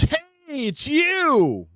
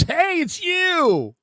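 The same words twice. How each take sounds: First: High, excited stranger's call; fan's greeting. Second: Slow, high, excited stranger's call; fan's greeting. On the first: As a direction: squeal it like an eager fan spotting you. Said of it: "and he goes". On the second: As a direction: stretch it out like a starstruck fan. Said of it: "He goes". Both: Retold or imitated.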